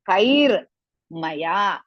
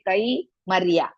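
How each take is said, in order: First: The r sound ends the first syllable. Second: The r sound starts the second syllable. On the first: The speaker calls it right. "Ra is half" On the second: The speaker calls it wrong. "Don't say kai Maria"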